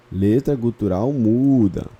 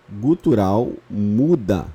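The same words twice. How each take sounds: First: "Letra gutural muda" slow, "muda" stressed; repeated term. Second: "gutural muda" said slowly, "muda" leaned on; slow and stressed. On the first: Teacher repeats the key term to fix it. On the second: Teacher stresses the term for students. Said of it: "Ela é uma letra". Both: Shown as a demonstration.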